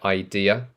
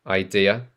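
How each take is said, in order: No difference in how they are said.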